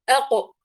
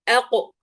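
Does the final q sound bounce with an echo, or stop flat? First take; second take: bounce; bounce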